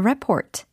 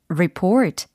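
First: The stress is on the first syllable. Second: The stress is on the second syllable. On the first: It is the noun, a report. "보고서에 해당하는 명사이니까 report라고 해주셔야 되겠죠" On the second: It is the verb, to report. "여기서는 보고하다라는 동사로 발음을 해주셔야 되겠어요"

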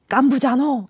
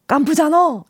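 First: It is said as an impression of a character. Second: It is said in the speaker's normal voice.

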